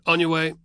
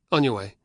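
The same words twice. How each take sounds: First: Higher, louder soldier waving him on; "On" punched, send him off sharply; curt dismissal. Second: Firm order, "On" stressed, near normal pitch. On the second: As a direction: order him on, clipped and firm. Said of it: "ordered the legionary". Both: Acted.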